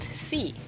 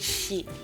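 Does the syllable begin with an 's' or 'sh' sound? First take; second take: s; sh. First: The syllable begins with a plain 's' sound. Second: The syllable begins with an 'sh' sound. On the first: The speaker calls it wrong. "not C" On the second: The speaker calls it right. "but she"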